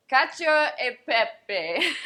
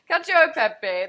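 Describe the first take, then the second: First: Hammed-up Italian accent, slow and loud; playful Italian chef voice. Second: Loud, higher hammed-up Italian; proud mock Italian chef; Italian accent. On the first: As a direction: Cacio e pepe said big and slow the Italian way, with a laugh. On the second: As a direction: Cacio e pepe belted out in a mock Italian accent. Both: Shown as a demonstration. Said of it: "That's my Italian accent".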